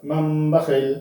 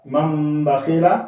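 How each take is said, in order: First: बखील closed on a vowelless "l"; pausal ending. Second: Said in the usual way. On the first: Shown as a demonstration. Teacher shows the stop, बखील ending in bare "l". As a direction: stop on बखील, dropping the final "a". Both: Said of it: "आगे वक्फ".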